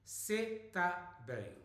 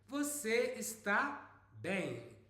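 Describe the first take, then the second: First: Both words are clipped to one syllable. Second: Both words are said in full. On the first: It is colloquial speech. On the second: It is the standard form.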